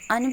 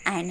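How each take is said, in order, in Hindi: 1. इसका स्वर छोटी 'uh' आवाज़ में रिड्यूस हो जाता है। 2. इसका स्वर 'and' की तरह पूरा बोला जाता है। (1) "एन को अन बोलते हैं" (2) "स्ट्रॉन्ग फॉर्म जो है एन है"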